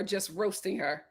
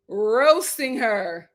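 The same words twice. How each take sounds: First: Said in the usual way. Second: "Roasting" stretched very slowly and louder; drawn out. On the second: Real, not acted. Relishing the brother teasing her, drawn out. Savoring the word.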